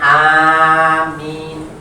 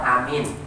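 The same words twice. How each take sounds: First: The first vowel is drawn out long. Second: The first vowel is kept short. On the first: "dipanjangkan dan diringankan aminnya" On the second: "yang kedua bacanya qasar"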